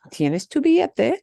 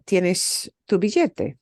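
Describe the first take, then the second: First: "billete" rising as a yes-no question; question intonation. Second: Said in the usual way. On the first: Shown as a demonstration. Teacher demonstrating a yes-no question in Spanish, rising on "billete". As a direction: lift the voice high at the end of "billete". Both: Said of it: "your voice goes up at the end".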